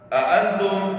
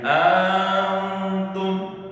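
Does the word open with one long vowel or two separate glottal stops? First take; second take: two stops; long vowel. First: Two separate glottal stops begin the word. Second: One long drawn-out vowel begins the word. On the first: "dibacanya dengan a a, ada dua hamzah di situ" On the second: "dengan dipanjangin"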